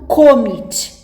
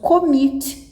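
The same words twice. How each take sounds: First: The stress is on the first syllable. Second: The stress is on the second syllable. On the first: The speaker calls it wrong. "e não" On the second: The speaker calls it right. "é o mit, é o final dele que é mais forte"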